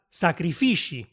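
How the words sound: The last consonant sounds like 'sh'. "che diventa sacrifici"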